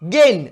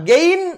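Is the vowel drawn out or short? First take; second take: short; drawn out. First: The vowel is kept short. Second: The vowel is stretched out long. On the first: The speaker calls it right. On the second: The speaker calls it wrong.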